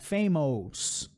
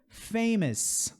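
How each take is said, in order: First: The last syllable has a full vowel before s. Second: The last syllable has a reduced schwa before s. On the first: The speaker calls it wrong. "não é famous" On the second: The speaker calls it right. "Schwa mais o S"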